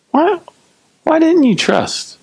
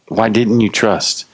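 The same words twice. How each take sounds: First: Very high-pitched, drawn-out reproach; incredulous reproach. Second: Slow, even, gently probing question; non-condemning. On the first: Jesus questioning the frightened disciples, high incredulous reproach. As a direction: ask it in exaggerated, squeaky disbelief. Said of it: "We can hear it that way if we want". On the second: Jesus inviting disciples to look at themselves, non-condemning. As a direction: ask it without blame, unhurried. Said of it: "Jesus wasn't condemning them". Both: Acted.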